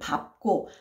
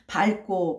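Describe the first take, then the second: First: The first syllable ends with a b sound. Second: The first syllable ends with an l sound. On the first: This is the officially standard pronunciation. "표준 발음에서는 밟고 밟는 밟던 이라고" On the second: This is how people commonly say it in everyday speech. "현실 발음은 밝고 밝는 이게 훨씬 많아요"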